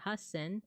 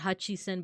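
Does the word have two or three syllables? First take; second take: two; three. First: The word has two syllables, has-sen. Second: The word has three syllables, ha-chi-sen. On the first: The speaker calls it right. "but hasen" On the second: The speaker calls it wrong. "not hachisen"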